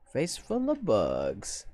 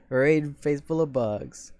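First: Spelling it out slowly; slow, careful dictation; slow and deliberate. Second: Slow and deliberate. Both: Shown as a demonstration. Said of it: "slowly reads raid phrase".

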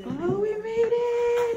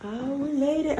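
First: Much higher, slow, drawn out; excited relief. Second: Said in the usual way. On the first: Real, not acted. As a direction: stretch it out in happy relief. Arrival, repeated higher.

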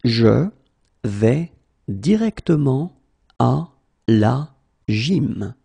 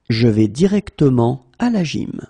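First: À la gym dragged out; slow, broken up. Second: Said in the usual way. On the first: Shown as a demonstration. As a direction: split it into pieces. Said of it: "teacher drills word by word". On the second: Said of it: "teacher repeats full sentence".

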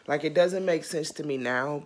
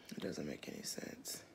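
First: Said in the usual way. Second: Hushed whisper, almost no voice. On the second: Real, not acted. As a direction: breathe it under your breath. Whispered aside while reacting.

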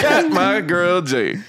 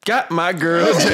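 First: Stretched out slow, laughing through it; slow laughing greeting. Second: Laughing greeting. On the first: Greeting his friend, slow and laughing. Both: Real, not acted.

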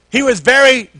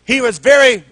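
No difference in how they are said.

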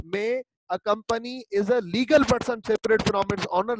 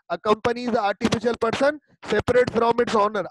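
First: "legal" को धीमे और साफ़ ज़ोर से; stress on legal. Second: "artificial" को धीमे और साफ़ ज़ोर से; stress on artificial. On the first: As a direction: hit the word "legal", slow and clear. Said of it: "artificial की जगह लीगल लगा दूं". ("legal" शब्द पर धीमा, स्पष्ट ज़ोर) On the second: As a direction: lean slowly on "artificial" in the sentence. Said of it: "अगर इसकी जगह". ("artificial" शब्द पर धीमा, स्पष्ट ज़ोर) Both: Shown as a demonstration.

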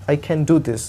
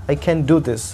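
The two takes are said the same way.

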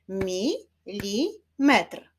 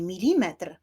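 First: "Milimetr" very slow, as mi, li, metr; syllable by syllable. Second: Said in the usual way. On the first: Shown as a demonstration. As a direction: clap out "Milimetr" in three separate beats. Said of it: "Wyklaszczmy sylaby". („Milimetr” powoli, sylabami: mi, li, metr) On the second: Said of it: "Wyklaszczmy sylaby w wyrazie".

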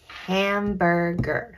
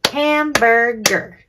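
First: "hamburger" slowly, split ham-bur-ger; measured "hamburger" in three separate beats; sounding out syllables. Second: "Hamburger" loud and slow in three beats; emphatic HAM-BUR-GER; clapped-out syllables. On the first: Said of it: "Let's talk about our syllables". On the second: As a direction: punch every syllable of "Hamburger" to a clap. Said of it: "Let's clap". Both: Shown as a demonstration.

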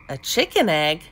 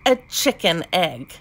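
First: "chicken egg" echoed as a wondering question; puzzled echo. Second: "chicken egg" stated with a falling end; matter-of-fact statement. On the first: Puzzled frog echoes it back. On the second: Knowing frog states it as fact. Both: A narrator's reading.

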